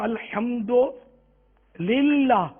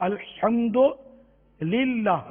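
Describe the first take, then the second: The two takes are said the same way.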